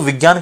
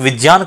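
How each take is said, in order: First: The cluster is said the everyday, popular way. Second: The cluster is said the linguistically prescribed way. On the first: Listeners understand it immediately. The speaker calls it wrong. "विज्ञान कहते ही तुरंत समझ में आ जाता है" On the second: Listeners find it hard to understand. The speaker calls it right. "किसी के समक्ष विज्ञान कहा जाए तो उसके लिए समझना कठिन है"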